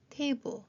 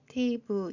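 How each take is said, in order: First: The first syllable carries a strong stress. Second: Both syllables are read evenly without marked stress. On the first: "강세까지 살려서" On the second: "글자 자체를 읽는 게 중요하고"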